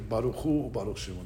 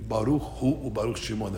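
First: The phrase is said quickly and rushed. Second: The phrase is said slowly and carefully. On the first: The speaker calls it wrong. "a lot of people don't say it correctly. They say" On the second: The speaker calls it right. "It's really ... If you do it the right way, it takes a few seconds"

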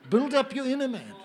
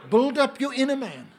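Both takes have the same delivery.

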